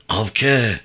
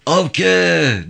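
First: First, restrained call of a name; mildly raised call, as if searching for someone. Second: High, loud drawn-out call of a name; shouted call. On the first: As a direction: call out with little force. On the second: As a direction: call out far and urgently for a missing person. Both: A narrator's reading. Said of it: "diye bağırarak".

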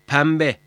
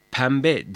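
First: "pembe" with m before the b; assimilated M sound. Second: "Pembe" with n in place of m; wrong N sound. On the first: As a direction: say "pembe" with lips closed on m. ("pembe", m sesiyle) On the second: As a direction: say "Pembe" as penbe. ("Pembe", m yerine n ile) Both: Shown as a demonstration. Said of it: "Pembe değil, pembe".

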